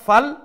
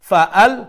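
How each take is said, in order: First: The syllables run together with no glottal catch. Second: A strong glottal catch separates the two syllables. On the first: The speaker calls it wrong. "ফাল ঠিক না" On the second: The speaker calls it right. "Hamza হইল কি পাওয়ারফুল অক্ষর"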